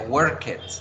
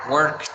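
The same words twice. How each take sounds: First: The -ed ending is said as an extra syllable. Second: The -ed ending adds no extra syllable. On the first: The speaker calls it wrong. "No se pronuncia" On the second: The speaker calls it right. "Se deben pronunciar"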